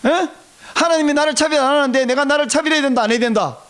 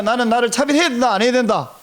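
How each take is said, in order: First: Higher, pressing quiz to the congregation; insistent prompting. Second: Said in the usual way. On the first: Real, not acted. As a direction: press them hard for the answer. Asks again after weak response. (높은 톤으로 다그쳐 되묻기)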